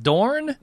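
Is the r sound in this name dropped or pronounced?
pronounced. The name is said with an r sound. It is how other readers expect it to sound. "if you're American, you wouldn't pronounce them that way"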